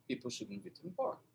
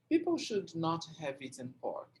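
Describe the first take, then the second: First: Should not is contracted and linked to the next word. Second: Should not is said as two full words. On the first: The speaker calls it right. "o natural dele é" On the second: The speaker calls it wrong. "ele não vai ser natural"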